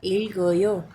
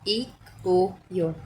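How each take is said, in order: First: The final consonant links onto the next vowel. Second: Each syllable is said separately, unlinked. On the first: The speaker calls it right. "हम इसे बोलेंगे" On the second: The speaker calls it wrong. "अलग अलग सिलेबल में"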